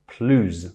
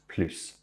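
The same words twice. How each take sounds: First: The word ends with a z sound. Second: The word ends with an s sound. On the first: "as it's followed by a vowel, it becomes plus" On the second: "The S of the first plus is always vocalized"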